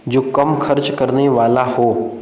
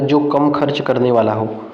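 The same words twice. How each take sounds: First: "जो कम खर्च करने वाला हो" slowly, word by word; slow dictation. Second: Said in the usual way. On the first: Shown as a demonstration. Teacher rereads exam option to students, slow "जो कम खर्च करने वाला हो".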